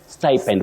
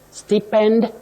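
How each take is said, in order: First: The first vowel is a gliding diphthong. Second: The first vowel is a short plain vowel. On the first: The speaker calls it right. "with that vowel glide" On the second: The speaker calls it wrong. "You say sty, not sti. Stipend, no"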